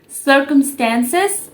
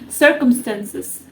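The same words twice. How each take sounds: First: The word is said in an American accent. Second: The word is said in a British accent. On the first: "in American accent, it's uh, pronounced as circumstances" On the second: "but in British accent, it's called circumstances"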